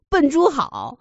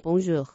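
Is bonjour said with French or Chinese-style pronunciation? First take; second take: Chinese; French. First: It is said with Chinese-style syllables. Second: It is said with French sounds. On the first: The speaker calls it wrong. "然后他发不出来，他就说成了笨猪好" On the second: The speaker calls it right. "你就学会说bonjour 就可以了"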